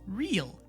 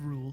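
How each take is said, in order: First: The vowel is a long 'ee' sound. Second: The vowel is a long 'oo' sound. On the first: The speaker calls it right. "It's real" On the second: The speaker calls it wrong. "instead of rule"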